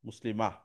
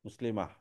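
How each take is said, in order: The two takes are said the same way.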